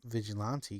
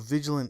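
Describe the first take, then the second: First: The word ends with a final 'tay' syllable. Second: The word ends on 'lant' with no final syllable. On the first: The speaker calls it right. "I didn't pronounce them Vigilante" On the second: The speaker calls it wrong. "I just call them Vigilant"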